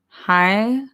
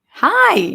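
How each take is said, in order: First: It is said like a question, rising. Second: It is said like an exclamation, falling.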